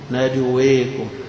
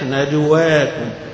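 First: The long vowel leans partway toward e. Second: The long vowel is a fully open a. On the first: "بالتقليل، تقليل يعني لا هي مفتوحة ولا هي مرجعة مائلة" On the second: "الفتح"

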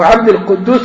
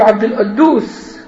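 First: The q is pronounced as a uvular q. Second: The q is pronounced as a glottal stop. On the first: The speaker calls it right. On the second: The speaker calls it wrong.

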